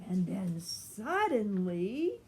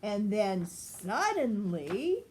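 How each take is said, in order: Both takes have the same delivery.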